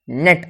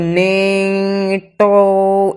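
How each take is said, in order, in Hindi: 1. शब्द साफ़ t की ध्वनि पर खत्म होता है। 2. t के बाद एक अतिरिक्त स्वर जोड़ा जाता है। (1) "इसे डायरेक्ट पढ़ा जाता है नेट" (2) "इसे ये नहीं पढ़ते नेटो"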